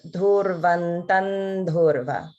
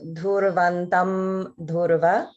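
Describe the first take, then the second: First: The first word ends with an n sound. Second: The first word ends with a clear m sound. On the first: "it becomes" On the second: "instead of"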